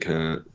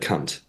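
First: The final T is weak and barely sounded. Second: The final T is hard and clearly sounded. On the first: The speaker calls it wrong. "You don't enunciate the T properly" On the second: The speaker calls it right. "Like a proper hard T at the end"

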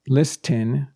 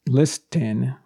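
First: The T sound is pronounced in the middle. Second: The T sound is pronounced in the middle.

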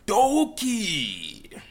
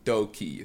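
First: It is said like an excited Japanese announcer. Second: It is said in a plain speaking voice.

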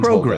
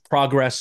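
First: The word is said with a British pronunciation. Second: The word is said with an American pronunciation. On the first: "In England" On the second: "in America"

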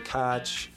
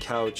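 First: It is said in a Pittsburgh accent. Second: It is said in a standard American accent. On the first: "you say catch" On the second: "Instead of saying couch"

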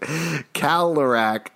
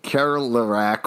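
First: The R in the first syllable is dropped. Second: The R in the first syllable is pronounced. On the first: This is how locals say it. The speaker calls it right. "We actually pronounce it Kalerac" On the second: This is how an outsider says it. The speaker calls it wrong. "I know Alex just said Kerlerac"

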